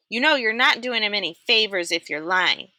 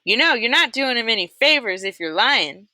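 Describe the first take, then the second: First: First take of Mister Sir in the wrong voice; a slip into the wrong accent for Mister Sir; misplaced accent for the guard. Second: Mister Sir's right voice, retaken; corrected Mister Sir voice. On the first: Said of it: "Sorry, wrong, wrong accent". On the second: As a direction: redo the line in Mister Sir's proper voice. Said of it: "wrong accent". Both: A narrator's reading.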